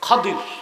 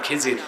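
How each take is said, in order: First: The name is said with a d sound, Khadir. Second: The name is said with a j sound, Khijir. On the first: This is the original form of the name. "ওনার আসল নাম কি?" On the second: This is the form people commonly use. "যাকে আপনারা কোন খিজির"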